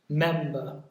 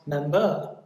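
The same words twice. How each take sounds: First: The stress is on the first syllable. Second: The stress is on the second syllable. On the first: The speaker calls it right. "it's on the first syllable" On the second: The speaker calls it wrong. "not member"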